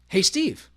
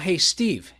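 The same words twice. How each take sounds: First: The voice rises at the end, like a question. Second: The voice does not rise at the end.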